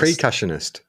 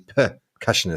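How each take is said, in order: First: The first syllable is said as 'pre'. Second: The first syllable is said as 'per'. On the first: The speaker calls it wrong. "I always say" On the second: The speaker calls it right. "it's actually percussionist"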